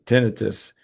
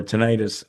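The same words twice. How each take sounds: First: TINNITUS with stress on the first syllable, TIN-ih-tus. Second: Tinnitus said tih-NIGHT-us, stress on the middle; alternative pronunciation. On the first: Host reads a viewer's question, tinnitus said as TIN-ih-tus. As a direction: say tinnitus as TIN-uh-tus, short middle vowel. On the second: Host offers another pronunciation, tinnitus as tih-NIGHT-us. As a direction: say tinnitus with a long i, tuh-NYE-tus. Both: Shown as a demonstration. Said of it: "however you pronounce it".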